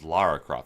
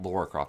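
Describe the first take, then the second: First: The first vowel sounds like 'ah'. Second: The first vowel sounds like 'aw'. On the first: The speaker calls it right. "It's Lara Croft" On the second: The speaker calls it wrong. "it's not Laura Croft. There's no U"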